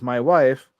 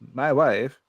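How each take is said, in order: First: It is said in his normal voice. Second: It is said in a Borat impression.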